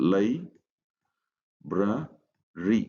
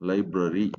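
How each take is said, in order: First: Each syllable is said separately with pauses. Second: The syllables run together without pauses.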